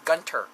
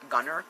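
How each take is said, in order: First: The word has a t sound after the n. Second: The word has no t sound after the n. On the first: The speaker calls it right. "I think it's Gunter. Like T's" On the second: The speaker calls it wrong. "Like not Gunner"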